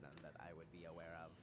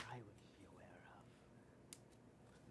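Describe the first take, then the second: First: Said in the usual way. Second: Whisper. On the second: Acted. NPC trails into whisper.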